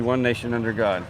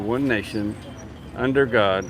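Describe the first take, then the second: First: There is no pause after 'nation'. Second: There is a pause after 'nation'. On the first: The speaker calls it right. "There's no comma. It's supposed to be" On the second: The speaker calls it wrong. "with the pause"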